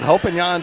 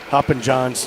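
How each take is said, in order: First: The name is said the Nordic way. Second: The name is said in an anglicized way. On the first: This is the official pronunciation. "Is that the proper pronunciation? ... The Nordic pronunciation" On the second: This version sounds more fun. "just sounds a lot more fun"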